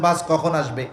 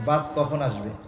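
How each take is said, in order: First: The question is asked in an impatient, annoyed way. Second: The question is asked in a calm, neutral way. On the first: The person is ready and complaining about the delay. "এর মধ্যে কিছু কথা আছে" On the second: The person is simply asking for information. "সাধারণভাবে জিজ্ঞাসা করছেন"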